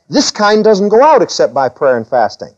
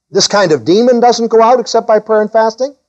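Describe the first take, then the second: First: Said in the usual way. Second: Higher, held pitch with a rise at the end of "fasting"; high-pitched questioning echo, lifting on "fasting"; questioning repeat. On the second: Shown as a demonstration. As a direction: query "This kind of demon doesn't go out except by prayer and fasting" on a high, rising tune. Querying the quoted statement's meaning.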